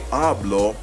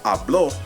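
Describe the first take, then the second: First: The stress is on the first syllable. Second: The stress is on the last syllable. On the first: I speak. "I mean I speak" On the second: He or she spoke. "I emphasize the O there"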